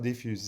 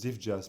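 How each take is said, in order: First: The name ends with a 'fuse' sound. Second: The name ends with a 'jazz' sound. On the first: The speaker calls it wrong. "People call it diffuse. It's not diffuse" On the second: The speaker calls it right. "It's diff jazz, people"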